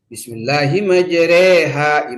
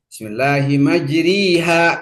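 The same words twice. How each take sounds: First: The vowels lean fully toward e. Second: The vowels have an i quality.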